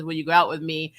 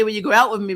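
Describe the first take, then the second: First: Said in the usual way. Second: Louder nervous attempt at "Will you go out with me?", pushed out at once; nervous first try. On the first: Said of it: "she finally says". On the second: Luce first trying to ask Amity out, louder nervous attempt. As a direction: blurt the question with a nervous push. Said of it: "she tries to say".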